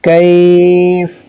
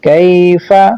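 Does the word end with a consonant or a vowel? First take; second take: consonant; vowel. First: The word ends on a consonant. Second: The word ends with a short vowel.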